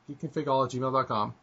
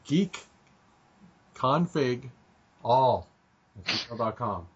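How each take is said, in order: First: It is said fast. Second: It is said slowly.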